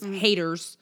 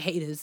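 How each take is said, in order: First: The final R sound is pronounced hard and strong. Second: The final R sound is dropped or softened. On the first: "Hard R. Hard. It was haters" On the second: "it wasn't haters"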